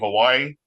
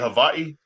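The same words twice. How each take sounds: First: It is said the usual English way. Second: It is said the native Hawaiian way. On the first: This is the habitual form that feels settler-like. The speaker calls it wrong. "my whole life I've been saying Hawaii" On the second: This is the respectful form of the name. The speaker calls it right. "supposed to be Hawaii"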